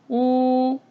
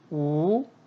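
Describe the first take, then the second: First: The pitch stays high and level. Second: The pitch rises from mid to high. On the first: "일성" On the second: "이성일 때는"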